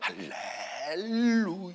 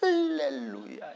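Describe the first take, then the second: First: The stress is on the second syllable. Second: The stress is on the first syllable. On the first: "두 번째 해도 돼" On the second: "앞에 액센트를 해도 돼"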